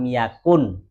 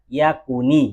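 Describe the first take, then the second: First: The word ends on the consonant n. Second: The word ends with an added i vowel. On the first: "Asalnya kan lam ya" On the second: "kan dibaca yakuni gitu ya"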